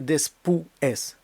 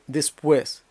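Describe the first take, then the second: First: The stress falls on the closed vowel u. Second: The stress falls on the open vowel e. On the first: The speaker calls it wrong. "Це не є después" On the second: The speaker calls it right. "наголос ставиться на відкриту голосну"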